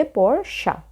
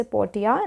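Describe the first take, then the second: First: पोर्शिया broken into syllables, por-sha, with 'sh'; correct pronunciation. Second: पोर्टिया with a 't' sound, por-ti-ya; wrong pronunciation. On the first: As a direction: spell out the sound of पोर्शिया as por, then sha. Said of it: "इसको पढ़ेंगे पोर्शिया". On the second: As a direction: say पोर्टिया with 't' in place of 'sh'. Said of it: "इसे पोर्टिया नहीं पढ़ेंगे". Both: Shown as a demonstration.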